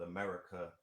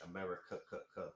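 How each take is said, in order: First: Said in the usual way. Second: "America" with its last K stuttered out; "America" ending in a staccato "ka-ka-ka"; three-K pronunciation. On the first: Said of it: "is called America with three Ks". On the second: Shown as a demonstration. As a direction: repeat the final "ka" of America as separate beats. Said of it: "America with three Ks".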